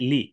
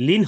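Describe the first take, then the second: First: লি as open "li" with no n; rum ending. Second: লিন closed with a sounded n; tanwin ending. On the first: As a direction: say লি without closing on n. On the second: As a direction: say লিন with its final n. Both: Shown as a demonstration. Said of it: "লিন হবে না".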